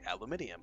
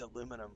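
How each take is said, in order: First: It is said with five syllables, ending -inium. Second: It is said with four syllables, ending -inum. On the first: The speaker calls it wrong. "which is the British pronunciation" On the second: The speaker calls it right. "it's spelled the American version. It's aluminum"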